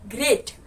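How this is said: It is said in an Indian English accent. "Indian accent"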